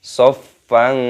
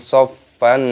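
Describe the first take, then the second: The two takes are said the same way.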